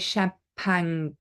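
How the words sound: The word is said with a French accent. The speaker calls it wrong. "we don't say champagne. Actually, that would be very French"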